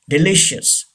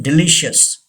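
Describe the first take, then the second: Both takes have the same delivery.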